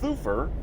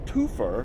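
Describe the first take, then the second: First: The name begins with a th sound. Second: The name begins with a plain t sound. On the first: The speaker calls it right. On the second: The speaker calls it wrong.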